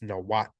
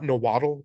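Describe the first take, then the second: First: The word ends in a short clipped consonant. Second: The word ends in a full 'dle' syllable. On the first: The speaker calls it right. "it's Nawat" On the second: The speaker calls it wrong. "It's not Nawaddle"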